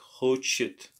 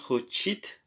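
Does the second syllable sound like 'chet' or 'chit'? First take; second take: chet; chit. First: The second syllable sounds like 'chet'. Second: The second syllable sounds like 'chit'. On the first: The speaker calls it right. "but хочет" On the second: The speaker calls it wrong. "It's not чи"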